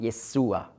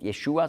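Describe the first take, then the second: First: The middle consonant is an s sound. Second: The middle consonant is an sh sound. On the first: This is the Arabic form of the name. "dann ist das im Arabischen ein S-Laut" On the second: This is the Hebrew form of the name. "wenn im Hebräischen ein Sch-Laut ist"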